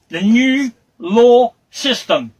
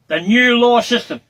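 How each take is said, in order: First: "the new law system" drawn out slowly, every word weighted; slow stressed phrase. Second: Said in the usual way. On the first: Real, not acted. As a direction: lean hard on "law", pace it right down. Repeated with slow emphasis.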